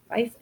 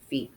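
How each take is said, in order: First: The vowel sounds like 'eye', rhyming with life. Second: The vowel sounds like 'ee', rhyming with leaf. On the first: The speaker calls it wrong. "I always say it wrong when I read it" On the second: The speaker calls it right. "Like a kingdom"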